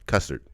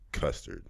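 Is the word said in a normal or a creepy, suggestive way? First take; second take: normal; suggestive. First: It is said in a normal, plain way. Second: It is said in a creepy, suggestive way.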